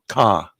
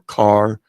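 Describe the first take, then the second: First: The final R sound is left off. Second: The final R sound is clearly pronounced. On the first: "it comes out ka, ... they leave off the R at the end" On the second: "instead of saying"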